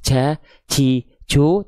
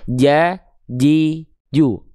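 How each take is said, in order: First: Breath leaks out with a hiss on the consonant. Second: The consonant is fully closed with no breath leak. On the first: The speaker calls it wrong. "jangan sampai ada keluar percikan nafas" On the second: The speaker calls it right. "tapi nempel tengah lidahnya ke arah langit-langit"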